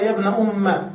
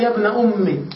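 First: "أم" said "umma", ending in a; fatha ending. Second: "أمي" ending in an i vowel; kasra ending. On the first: Teacher quoting the other reading of the verse, fatha ending. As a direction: close "يا ابن أم" on an open a. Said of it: "وفي قراءة". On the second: Teacher quoting the verse to show the kasra reading, i ending. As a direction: say "يا ابن أمي" closing on i. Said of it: "يجوز الكسر ويجوز الفتح". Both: Shown as a demonstration.

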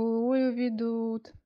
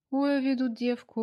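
First: Slow, high, wailing complaint; drawn-out mock lament. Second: Higher, louder folk-style wail; mock lament. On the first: Georgy teasing Anya on the phone, slow mock wail. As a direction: stretch the sigh out like a folk lament. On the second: Georgy teasing Anya on the phone, mock lament. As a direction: complain to nobody like an old village wailer. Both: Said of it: "неизвестно кому пожаловался Георгий".

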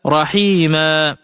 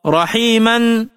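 First: رحيما said slowly as raḥīmā, the nunation dropped for a long a; pausal reading. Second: رحيما ending in -an with nunation, slow; with tanween. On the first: Teacher demonstrates رحيما as read at a pause, slow recitation. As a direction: stop on رحيما with a drawn-out final a. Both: Shown as a demonstration. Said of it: "فتلفظ عند الوقف هكذا".

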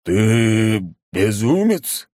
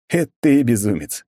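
First: Slow, stunned monster question; disbelieving growl; surprised monster. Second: Defiant. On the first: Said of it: "откровенно удивилось могущественное чудовище". (удивлённое чудовище) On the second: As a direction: throw the insult back. Hero throws the words back. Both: A narrator's reading.

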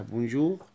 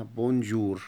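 First: بونجور ending in a throaty gh; بونجور with a back-of-throat R; French R. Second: بونجور ending in a plain Arabic R; بونجور with a clear R at the end; rolled R. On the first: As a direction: end بونجور on a French gargled R. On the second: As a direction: end بونجور on a normal tapped R. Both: Shown as a demonstration. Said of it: "لأن حرف ال R".

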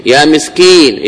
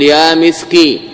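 First: Said in the usual way. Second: يا مسكين cut to يا مسكِ, ending on the kaf with kasra; teacher demo of يا مسكِ with the kasra kept; truncated vocative. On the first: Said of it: "تحذف الياء والنون". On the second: Shown as a demonstration. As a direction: drop the final ين and stop on the kaf with a short i. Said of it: "تبقي الكاف مكسورة كحالها".

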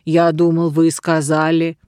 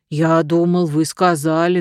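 First: Slow embarrassed bear. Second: Bear starting to object. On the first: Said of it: "заговорил медленно и смущённо". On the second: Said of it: "начал медведь". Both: A narrator's reading.

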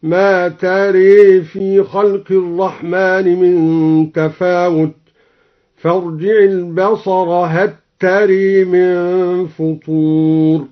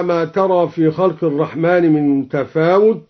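First: Slow chant bending the alif in ترى toward e; recited with imala. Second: Said in the usual way. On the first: Shown as a demonstration. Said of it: "بإمالة الألف بعد الراء". (ترتيل بطيء بإمالة ترى)

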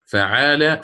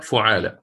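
First: فعال said as "fa'aala"; first letter with fatha. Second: فعال said as "fu'aala"; first letter with damma. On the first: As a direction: open فعال on "fa", with a long aa. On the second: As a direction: open فعال on "fu", with a long aa. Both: Shown as a demonstration. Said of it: "بالفتح أو الضم".

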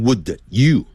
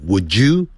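First: "would you" as two separate words; "would you" with an unblended d; unlinked pronunciation. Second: "would you" blended into "wou-joo"; "would you" run together with a j sound; linked pronunciation. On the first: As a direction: keep the d of "would" apart from "you". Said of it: "不要念成". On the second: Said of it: "变成". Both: Shown as a demonstration.

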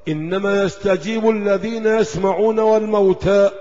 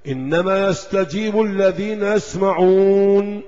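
First: يسمعون run straight into والموتى without a break; wrong reading that rushes past the stop; يسمعون والموتى joined with no pause. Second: Slow reading that comes to a full stop on يسمعون; يسمعون closes the phrase with a full stop; stop at yasmaʿun. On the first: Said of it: "إيه ده". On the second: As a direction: recite slowly and halt on يسمعون. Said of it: "قف". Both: Shown as a demonstration.

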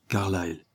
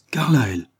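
First: Said in the usual way. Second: Higher and louder astonished echo of the name. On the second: Acted. Sir Francis hears his rival's name, astonished. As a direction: echo the name in sheer disbelief. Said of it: "au comble de l'étonnement".

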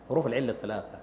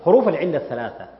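First: Quiet repeat. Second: Said in the usual way. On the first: Shown as a demonstration. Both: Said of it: "repeated for emphasis".

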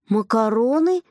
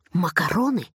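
First: МАКАРОНЫ repeated with a rising question tune; questioning echo. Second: Offering it carefully, pitch settling at the end; tentative suggestion. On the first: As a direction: echo «макароны» back, lifting the end in doubt. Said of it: "переспросил я". (переспрос «макароны?» с подъёмом в конце) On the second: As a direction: float the word as a bright idea. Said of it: "как будто к нему пришла гениальная мысль". (осторожное предложение) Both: A narrator's reading.

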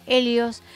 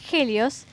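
First: "Helios" with the H silent, as EH-lyos. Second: "Helios" with a Spanish J sound, HEH-lyos; H pronounced like G. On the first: Real, not acted. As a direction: say "Helios" starting straight on the E. Dicho con hache muda. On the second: Shown as a demonstration. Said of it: "Se pronuncia con G".

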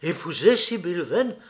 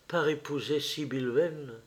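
First: Higher, louder, rising astonished echo; surprised exclamation. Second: Said in the usual way. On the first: A narrator's reading. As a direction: echo it in disbelief. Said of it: "s'écria Lord Henry".

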